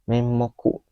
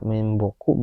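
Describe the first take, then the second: First: The middle consonant is an m sound. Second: The middle consonant is a b sound. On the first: "bisa juga menmoku" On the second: "Bisa dibaca menboku"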